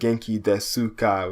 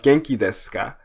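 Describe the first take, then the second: First: The u after the s is fully voiced. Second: The u after the s is dropped. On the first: "it phonetically looks like Genki Desuka" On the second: "they don't really pronounce the U"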